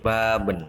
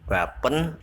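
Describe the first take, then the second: First: The middle consonant is a b sound. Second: The middle consonant is a p sound. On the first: The speaker calls it right. "tapi baben" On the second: The speaker calls it wrong. "bukan ... bapen"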